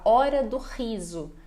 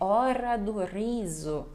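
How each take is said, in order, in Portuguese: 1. O R é curto, simples e seco. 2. O R é rico, cheio e saboreado. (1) "para nós ficar mais seco" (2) "é um R mais saboreado"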